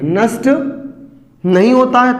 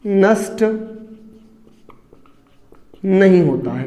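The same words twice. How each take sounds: First: Said in the usual way. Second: नष्ट said alone, long pause, then नहीं होता है dropped low; dictating slowly with pauses. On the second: Shown as a demonstration. (नष्ट … नहीं होता है धीरे, रुक-रुककर, लिखवाते हुए) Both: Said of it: "दूसरा".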